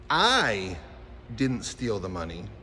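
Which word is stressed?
I. The word "I" carries the main stress. Someone else might have stolen it. "Someone else might have. / Right. That's what that said"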